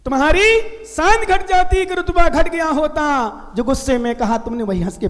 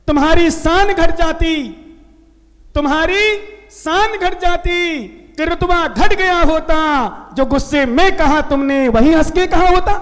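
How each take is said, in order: First: Couplet repeated lightly. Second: Recited couplet. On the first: Monk repeating the doha for his listeners, quick and trailing off. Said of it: "क्या?". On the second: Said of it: "मुझे दोहा याद है". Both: Shown as a demonstration.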